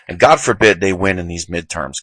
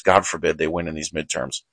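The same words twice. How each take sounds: First: Said in the usual way. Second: Quiet repeat. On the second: Real, not acted. Host repeats his warning to listeners, softly. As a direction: mutter the repeat under the breath.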